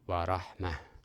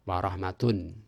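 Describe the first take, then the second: First: The word ends with a soft h sound. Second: The word ends with a full -tun sound. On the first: The reading stops on this word. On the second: The reading continues without stopping.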